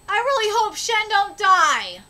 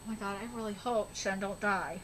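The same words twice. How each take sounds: First: Said in the usual way. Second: Much lower and softer pleading; real hushed plea; hushed hope. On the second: Real, not acted. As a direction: murmur a worried prayer.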